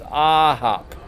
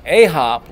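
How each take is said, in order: First: "a hop" opening with a long, loud AH; "ah" as in aha. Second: "a hop" opening with a long AY; wrong pronunciation, "ay". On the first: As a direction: draw out "a hop" slowly as AAH-hop. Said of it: "like aha". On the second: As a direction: stress "a hop" as AY-hop. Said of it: "it's not a hop like a house". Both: Shown as a demonstration.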